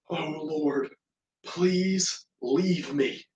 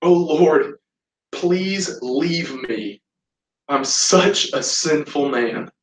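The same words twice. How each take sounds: First: Hushed plea after a sharp gasp; gasp, then plead softly and slowly; retold panic. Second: Slow, drawn-out plea; retold anguished plea. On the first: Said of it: "Simon's heart starts to panic". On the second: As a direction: draw out each phrase of the plea. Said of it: "Simon listens to his heart again".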